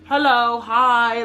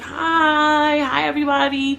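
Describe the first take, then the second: First: The greeting sounds cold and standoffish. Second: The greeting sounds warm and friendly.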